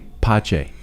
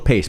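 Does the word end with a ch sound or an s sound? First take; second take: ch sound; s sound. First: The word ends with a ch sound. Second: The word ends with an s sound. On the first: The speaker calls it wrong. "Dad referred to it as Pache" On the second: The speaker calls it right. "the simple pronunciation that it was"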